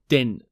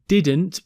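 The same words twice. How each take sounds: First: The T sound at the end is dropped. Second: The T sound at the end is pronounced.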